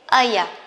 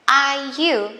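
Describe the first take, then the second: First: The two words are run together and reduced. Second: The two words are said fully and separately.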